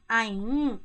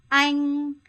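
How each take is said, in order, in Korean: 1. 음높이가 평평하지 않고 움직여요. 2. 음높이가 처음부터 끝까지 평평해요. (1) "이렇게 하면 안 돼요" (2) "평성"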